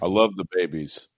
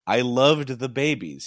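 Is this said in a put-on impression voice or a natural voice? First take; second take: impression; natural. First: It is said in a put-on impression voice. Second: It is read in the speaker's own natural voice.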